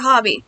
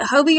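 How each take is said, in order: First: The first vowel sounds like 'ah'. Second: The first vowel sounds like 'oh'. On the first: A well-known crafter says it this way. "she says Hobby" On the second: Most people say it this way. "I've always said it Hobie"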